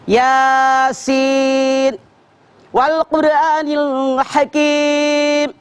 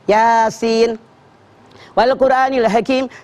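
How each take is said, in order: First: It is recited slowly and carefully. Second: It is recited very quickly and rushed. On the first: The reciter is reciting with proper care. The speaker calls it right. "itu yang tartil" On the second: The reciter is rushing through worship. The speaker calls it wrong. "baca Yasin ngebut"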